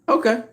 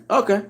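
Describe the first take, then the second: First: Okay pitched even higher, mocking; sarcastic okay, higher. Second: High, drawn-out sarcastic okay; a disbelieving Okay, pitched high. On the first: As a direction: push the sarcastic Okay up further. Sarcastic reply repeated, higher. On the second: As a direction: say Okay like you don't buy it at all. Sarcastic reply to club fighter claim. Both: Real, not acted.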